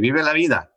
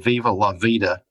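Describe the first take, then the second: First: It is pronounced with a Spanish accent. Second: It is pronounced with an English accent. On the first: The speaker calls it right. "with the Spanish pronunciation" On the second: The speaker calls it wrong. "I can't say viva la vida"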